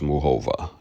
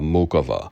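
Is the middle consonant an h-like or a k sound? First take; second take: h-like; k. First: The middle consonant is a soft h-like sound. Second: The middle consonant is a hard k sound. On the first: This is how European announcers say it. "the European um, announcers, they pronounce it as Muhova" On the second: This is how American announcers say it. "the Western pronunciation, you know, they like to say"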